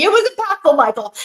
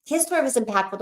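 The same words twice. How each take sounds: First: "was" pushed high and loud; playful insistence. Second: Said in the usual way. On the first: Real, not acted. Reassuring Michael about his story, playfully insistent. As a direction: lean hard on "was", high and loud, with a laugh.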